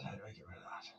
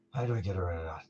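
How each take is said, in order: First: Whisper. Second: Said in the usual way. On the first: Real, not acted. Muttering while fixing stream.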